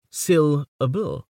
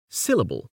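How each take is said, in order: First: The last syllable carries a lighter stress. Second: Only the first syllable is stressed. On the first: "put a lesser accent on the last" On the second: "by stressing only sil and leaving ub and ul unstressed"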